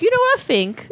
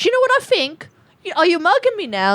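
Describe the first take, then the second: First: High put-on British girl voice; catchphrase of a Love Island girl; British reality show accent. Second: Put-on high, fast Love Island girl voice; British reality show accent. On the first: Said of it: "my impression of one of the people". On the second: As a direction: mimic a catty British islander. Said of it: "what accent was that?".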